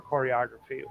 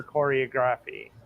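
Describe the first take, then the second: First: Choreography said a second way, as self-correction; unsure second attempt at "choreography"; alternate pronunciation. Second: Choreography said the first way, uncorrected; first attempt at saying "choreography"; alternate pronunciation. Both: Real, not acted. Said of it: "however it's pronounced".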